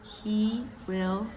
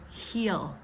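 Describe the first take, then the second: First: Two full separate words are spoken. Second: It is reduced to one contracted syllable. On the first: "He will changes to he'll" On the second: "He will changes to he'll"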